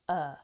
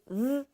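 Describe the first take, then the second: First: The word shrinks to a short uh. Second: The word shrinks to a v sound. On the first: "to uh" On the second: "to th"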